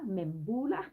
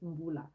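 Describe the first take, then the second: First: The name begins with a full 'Mem' syllable. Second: The name begins with a plain M sound. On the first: The speaker calls it wrong. "A lot of people pronounce it Membula" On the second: The speaker calls it right. "It's Mbula"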